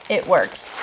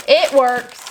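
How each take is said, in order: First: Said in the usual way. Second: It works said louder, stress on It; louder satisfied It works; pleased. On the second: Shown as a demonstration. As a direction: announce It works with relief.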